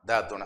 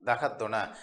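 First: The word is said in a shortened form. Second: The word is said in its full form. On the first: This is the casual spoken form. "பேச்சு வழக்குக்கு பிள்ளைகள் பேசுவதற்கு அவர்கள் colloquial டைப்பில் பேசுவதற்கு தா துணை" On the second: This is the standard form. "பத்தோட வந்து சேர்க்கும் பொழுது தகைய துணை என்று செல்லாமல் இங்கே பாருங்க அந்த தகையவில் இருக்கிற யானா எடுபட்டு தகத்துணை"

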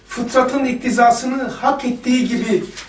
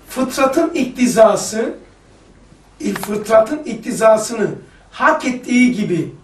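First: The phrase is read at normal, quicker speed. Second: The phrase is read slowly and deliberately.

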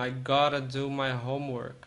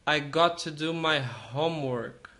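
First: 'Got to' is run together into 'gotta'. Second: Both words 'got to' are said in full.

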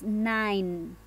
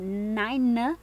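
First: The word ends on the n with no vowel. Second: A vowel sound is heard after the final n. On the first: The speaker calls it right. "es nine. Siempre cuando termina una palabra en E, la E no tiene sonido" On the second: The speaker calls it wrong. "dirían nine o nine, pero no"

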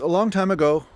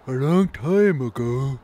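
First: It is said in the speaker's normal voice. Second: It is said in a put-on old man voice.

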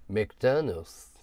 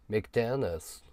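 First: It is said with a native English accent. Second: It is said with a native English accent.

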